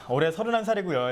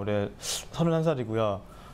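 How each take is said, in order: First: Each syllable is articulated clearly and firmly. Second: The words are mumbled and trail off loosely. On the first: The speaker seems confident and professional. The speaker calls it right. "정확한 발성과 발음으로 하는 자기소개" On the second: The speaker seems to lack confidence. The speaker calls it wrong. "대충 하는 자기소개"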